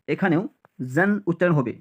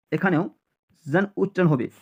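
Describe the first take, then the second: No difference in how they are said.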